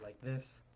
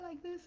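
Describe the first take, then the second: First: It is said in the speaker's natural voice. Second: It is said in a put-on girl voice. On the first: "my normal voice is like this" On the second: "when I try to do a girl voice, I try to do it like this"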